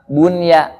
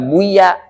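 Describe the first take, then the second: First: The n sound is clearly pronounced before y. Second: The n sound merges into the y. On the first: The speaker calls it right. "Kalah bunya" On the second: The speaker calls it wrong. "Henteu dibaca buya"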